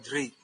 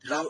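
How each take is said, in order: First: The root ends with a 'ri' sound. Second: The root ends with a 'ru' sound. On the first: This is how it is said in some other parts of India. "In some parts of India, they would pronounce ri" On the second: This is how it is said in Tamil. "in Tamil pronunciation"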